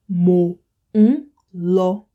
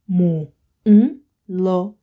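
No difference in how they are said.

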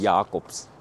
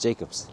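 First: The name has an Afrikaans pronunciation. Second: The name has an English pronunciation. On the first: "But that's in Afrikaans" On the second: "In English, it's just Jacobs"

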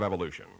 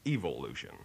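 First: The first syllable is said the ordinary way. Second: The first syllable sounds like the word evil.

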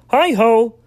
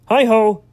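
Both takes have the same delivery.

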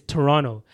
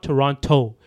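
First: The second T is dropped, not pronounced hard. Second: The second T is pronounced clearly and hard. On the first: The speaker calls it right. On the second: The speaker calls it wrong.

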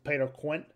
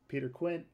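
First: The name is said in a put-on accent. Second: The name is said in a natural voice.

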